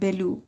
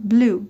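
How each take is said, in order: First: A vowel separates the b and the l. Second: The b and l are joined directly. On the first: The speaker calls it wrong. "من اینو دیگه فارسی نمیخونم" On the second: The speaker calls it right. "دارم به صورت انگلیسی میگم"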